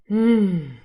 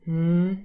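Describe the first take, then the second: First: The hum sounds relieved. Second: The hum sounds bored.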